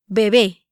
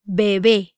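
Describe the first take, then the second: First: Said in the usual way. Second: "Bebé" a little slower, syllable by syllable; "Bebé" in two measured syllables; careful pronunciation demo. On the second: Shown as a demonstration. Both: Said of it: "try pronouncing these words".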